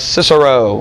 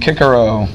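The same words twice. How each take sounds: First: The name has soft English S sounds. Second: The name has hard Latin K sounds. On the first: The speaker calls it wrong. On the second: The speaker calls it right.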